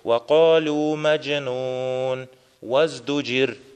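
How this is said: There is a pause before the last word. The last word is a separate statement, not their speech. The speaker calls it right. "чтобы ты остановился, когда читаешь вакалю маджнун, а затем уже соединяешь и говоришь ваздуджир"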